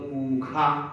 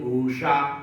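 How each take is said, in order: First: The middle consonant is a 'kh' sound. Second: The middle consonant is a curled-tongue 'sh' sound. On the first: The speaker calls it wrong. "खा बोलते हैं" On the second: The speaker calls it right. "वो जीभ मोड़ करके"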